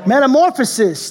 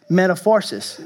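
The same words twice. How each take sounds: First: Metamorphosis said as met-a-MOR-pho-sis, louder and higher; corrected pronunciation. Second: Metaphoresis said as met-a-FOR-sis, the wrong word; mispronounced. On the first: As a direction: land on metamorphosis carefully. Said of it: "I have problem pronouncing". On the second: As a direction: slip into metaphoresis without noticing. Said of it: "That's what happens when I don't look". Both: Real, not acted.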